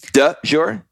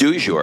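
First: The first word is pronounced like 'de'. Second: The first word is pronounced like 'du'.

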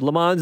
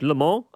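First: It is said with an English-style pronunciation. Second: It is said with a French-style pronunciation. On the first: The speaker calls it wrong. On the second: The speaker calls it right.

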